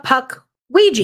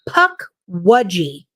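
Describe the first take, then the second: First: The word ends with a 'weegee' sound. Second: The word ends with a 'wudgie' sound. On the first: The speaker calls it wrong. "called it a puck Ouija" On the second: The speaker calls it right. "That is the p- correct pronunciation"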